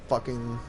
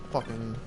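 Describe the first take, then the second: Both takes have the same delivery.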